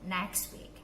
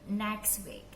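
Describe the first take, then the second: No difference in how they are said.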